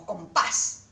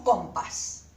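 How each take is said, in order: First: "compás" stressed on PÁS, as com-PÁS; correctly stressed "compás", weight on PÁS; stress on last syllable. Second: "compás" stressed on COM, as CÓMpas; mis-stressed "compás", said CÓM-pas; wrong stress on first syllable. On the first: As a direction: punch the final syllable of "compás". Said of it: "Esta es la sílaba tónica". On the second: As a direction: punch the first syllable of "compás", let the second fall. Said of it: "No decimos compás". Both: Shown as a demonstration.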